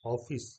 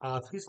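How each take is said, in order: First: The first vowel falls between aa and o. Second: The first vowel is a full open aa. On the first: The speaker calls it right. "ना तो हम आ की मात्रा पूरी बोल रहे हैं और ना ही हम ओ की मात्रा" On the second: The speaker calls it wrong. "ऑफिस नहीं कह रहा हूं मैं"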